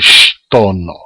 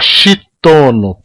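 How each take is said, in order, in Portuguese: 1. O som 'sh' vai direto para o 't'. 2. Uma vogal 'i' extra segue o som 'sh'. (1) "Ele é só o chiado, não tem i depois do sh" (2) "Não pode falar chitono, porque está errado"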